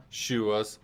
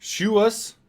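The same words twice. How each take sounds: First: Said in the usual way. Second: Much higher, rising "Shoe us?" as if asking what it means; puzzled question. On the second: Real, not acted. Streamer reads an odd chat name aloud, puzzled and rising.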